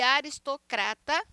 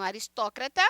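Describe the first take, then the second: First: "aristocrata" stressed on CRA; Portuguese stress on CRA. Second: "aristócrata" stressed on TÓ; Spanish stress on TÓ. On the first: Teacher showing Portuguese, "aristocrata" stressed on CRA. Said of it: "português". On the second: Teacher demonstrating Spanish, "aristócrata" stressed on TÓ. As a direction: hit TÓ in "aristócrata". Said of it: "em espanhol". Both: Shown as a demonstration.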